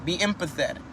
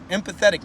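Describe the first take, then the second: First: Said in the usual way. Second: Empathetic lifted and punched, then falling; stress on empathetic. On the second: Shown as a demonstration. Teaching the listener empathy, stress on Empathetic. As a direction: lean hard on Empathetic. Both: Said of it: "not sympathetic".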